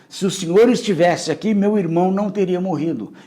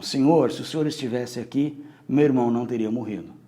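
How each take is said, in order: First: It sounds accusing, like demanding an explanation. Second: It sounds humble, like a pleading lament.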